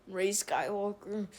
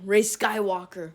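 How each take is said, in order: First: "Rey Skywalker" said much softer, reluctant and grudging; disgusted mutter. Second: Said in the usual way. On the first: Real, not acted. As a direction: force out "Rey Skywalker" as if it hurts. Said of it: "I hate those words". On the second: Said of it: "I'm gonna say it once".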